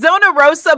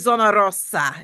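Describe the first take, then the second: First: The r in Rosa is plain, not rolled. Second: The r in Rosa is rolled with the tongue.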